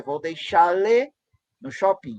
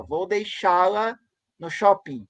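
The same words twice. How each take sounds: First: "deixá-le" ending in le instead of la, drawn out; final em le. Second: Said in the usual way. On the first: Shown as a demonstration. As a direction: stretch "deixá-le", showing the new le ending. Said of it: "A proposta é". ("deixá-le" com le no lugar de la, devagar) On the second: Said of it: "as propostas".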